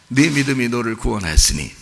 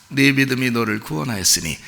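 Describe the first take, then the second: The two takes are said the same way.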